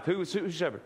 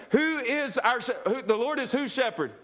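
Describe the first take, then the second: First: Said in the usual way. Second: Higher, brighter call-and-response with a laugh; rally the congregation with joy; more confident and joyful. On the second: Shown as a demonstration. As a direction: lift the crowd, laughing and eager. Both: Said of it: "can we be a little more confident and joyful now".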